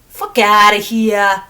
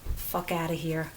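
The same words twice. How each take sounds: First: It is said in a New Jersey accent. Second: It is said in her plain accent.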